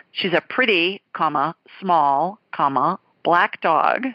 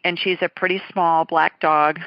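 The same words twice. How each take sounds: First: "pretty, comma, small, comma, black dog" spoken slowly with a pause at each comma; pauses between adjectives. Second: Said in the usual way. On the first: Shown as a demonstration. Host spelling out the listener's wording, comma by comma. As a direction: read out every comma as a word. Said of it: "not a pretty small dog".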